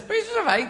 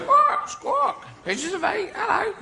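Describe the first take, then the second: First: Said in the usual way. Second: Very high parrot voice; parrot squawk. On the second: Acted. Parrot on Long John Silver's shoulder, very high squawky voice. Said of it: "'Cause parrots".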